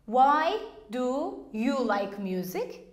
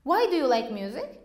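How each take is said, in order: First: Slow demo. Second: The question rattled off fast; quick repeat. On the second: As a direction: say it again at normal speed, quickly. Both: Shown as a demonstration. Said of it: "If I say".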